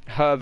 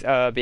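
First: Said in the usual way. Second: "herb" with a silent H; American H-less herb. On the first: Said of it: "where we say herb". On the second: Shown as a demonstration. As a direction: drop the H so "herb" starts on the vowel. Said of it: "Americans always say herb".

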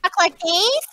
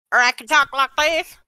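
First: Higher put-on voice, lifting at the end. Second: Put-on voice, slightly raised, rising at the end; second put-on voice. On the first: Showing friends another way to talk, higher put-on voice. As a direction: show off a higher voice. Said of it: "And then I can talk". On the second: Showing friends a second way to talk, put-on voice. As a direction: switch to another demo voice. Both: Shown as a demonstration.

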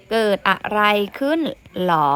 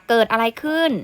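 First: "เกิดอะไรขึ้น" with a separate questioning "หรอ" after it; teacher models "เกิดอะไรขึ้น หรอ" as a question; question variant. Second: Said in the usual way. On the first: Shown as a demonstration. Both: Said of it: "แบบนี้ก็ได้นะคะ".

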